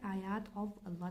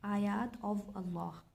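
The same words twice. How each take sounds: First: Said in the usual way. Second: आयात of Allah said slowly, each word set apart; slow model translation. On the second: Shown as a demonstration. Teacher showing students the translation, slow and deliberate. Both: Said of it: "इसकी translation ऐसे बनेगी".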